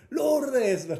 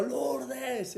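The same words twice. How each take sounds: First: Louder, higher shout of a name. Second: A hint of calling the name out; mild mock yell. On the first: Retold or imitated. Bursting into his sister's house, shouting her name. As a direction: yell the name from the doorway. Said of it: "pegué un grito así". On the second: Retelling calling his sister at the door, mild mock yell. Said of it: "le pegué el grito".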